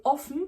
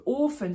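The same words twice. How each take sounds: First: "offen" with a short open o. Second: "offen" said as Ofen, long closed o. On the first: Teacher naming the word for open, short o in "offen". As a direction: clip the first vowel of "offen". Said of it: "c'est ouvert". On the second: Teacher naming the oven, long o as in "Ofen". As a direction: hold the first vowel of "offen". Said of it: "c'est le four". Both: Shown as a demonstration.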